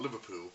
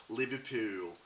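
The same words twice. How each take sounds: First: Said in the usual way. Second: Liverpool said in Scouse with a stretched final vowel; Scouse accent on Liverpool. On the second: Shown as a demonstration. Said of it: "is known as Scouse".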